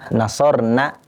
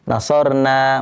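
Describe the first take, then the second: First: The final vowel is said short. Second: The final vowel is said long. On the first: A group of women helped. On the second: We helped.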